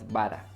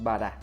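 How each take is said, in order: First: The stress is on the first syllable. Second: The stress is on the second syllable. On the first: The speaker calls it wrong. "no es Bara" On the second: The speaker calls it right. "es Bara"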